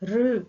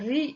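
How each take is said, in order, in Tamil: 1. r க்கு அடுத்து short u உயிர் வருகிறது. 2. r க்கு அடுத்து ee உயிர் வருகிறது.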